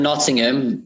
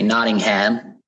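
First: It is said in a British accent. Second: It is said in an American accent.

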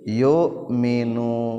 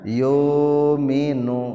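First: A glottal stop is heard before the m. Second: A long u vowel replaces the glottal stop. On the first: "diantepkeun jadi anger keneh jadi yuminu" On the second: "menang ditukerkeun kana wawu jadi macana yuminu"

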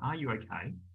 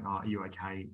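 First: It sounds sincere and caring, genuinely interested. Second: It sounds casual and offhand, not really interested.

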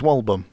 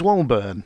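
First: The name ends with a 'bum' sound. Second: The name ends with a 'burn' sound. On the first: The speaker calls it right. "It's Walbum" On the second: The speaker calls it wrong. "I always read it as Walburn, but it's not"

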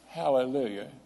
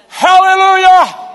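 First: It is said flatly, without excitement. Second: It is shouted out with excitement.

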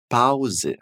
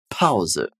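First: The P is soft and it ends in 'a'. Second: The P is explosive and it ends in 'e'. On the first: The speaker calls it wrong. "A gente não vai falar Pause" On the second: The speaker calls it right. "o P ele é bem explosivo e a gente tem a terminação com E"

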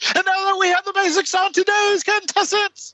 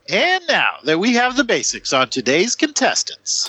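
First: It is said quickly with heightened intensity. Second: It is said at an ordinary pace and energy.

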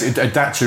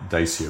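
First: The name is said the native way. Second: The name is said the anglicized way. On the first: This is how the maker's home country says it. The speaker calls it right. "Dacia is the proper pronunciation" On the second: This is the form already in use locally. The speaker calls it wrong. "we'd already gone down the Dacia route"

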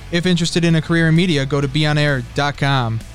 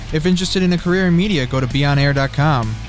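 The two takes are said the same way.

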